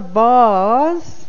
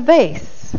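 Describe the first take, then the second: First: Vase is said to rhyme with farce. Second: Vase is said to rhyme with face. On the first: The speaker calls it wrong. "You don't say farce" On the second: The speaker calls it right. "because you say face"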